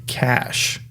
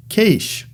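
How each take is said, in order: First: "cash" said with a short flat-a vowel, as in cat; short-a pronunciation. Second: "cache" said like "kaysh", with a long a; long-a pronunciation. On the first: Lecturer giving the preferred way, "cash" with a short a. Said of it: "You see, I say cash". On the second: Lecturer quoting colleagues' rival way, "cache" as "kaysh". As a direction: say "cache" to rhyme with the start of "nation". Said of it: "Some of my colleagues say cache". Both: Shown as a demonstration.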